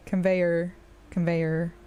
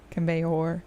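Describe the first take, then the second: First: Conveyor with the final syllable said like er; er ending. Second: Conveyor ending in a full rounded or. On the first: Streamer demonstrating her accent variants: conveyor with er. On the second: Streamer demonstrating her accent variants: conveyor with or. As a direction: conveyor with the last syllable said like or. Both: Shown as a demonstration. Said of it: "the or or er sound at the end".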